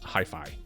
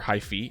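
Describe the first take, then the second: First: The final vowel is an 'eye' sound. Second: The final vowel is not an 'eye' sound. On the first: The speaker calls it right. "the A E makes the I sound" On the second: The speaker calls it wrong. "the English way"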